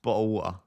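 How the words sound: It is said in Essex accent, T's dropped.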